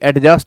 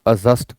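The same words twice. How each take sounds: First: The d sound is pronounced before the j. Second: The d sound is silent before the j. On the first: The speaker calls it wrong. "ऐसे ही एडजस्ट ना कहें" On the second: The speaker calls it right. "आप एडजस्ट कहें"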